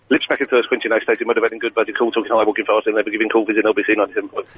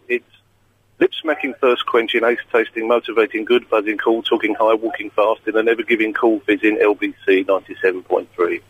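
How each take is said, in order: First: It is said at a very fast speed. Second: It is said at a normal speed.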